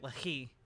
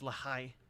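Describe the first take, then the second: First: The second syllable sounds like 'hee'. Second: The second syllable sounds like 'high'. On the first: The speaker calls it wrong. "I've been pronouncing it Lahi" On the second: The speaker calls it right. "I guess it's Lahai"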